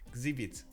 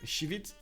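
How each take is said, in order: First: The name begins without an sh sound. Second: The name begins with an sh sound. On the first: The speaker calls it wrong. "We have a different uh, pronunciation for X" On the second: The speaker calls it right. "Sh at the beginning?"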